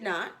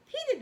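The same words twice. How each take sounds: First: "not" low and firm. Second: "did" jumped up high. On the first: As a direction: land on "not" low and final. Second, low take. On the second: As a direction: throw "did" up sharply. Emphatic answer. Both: A narrator's reading.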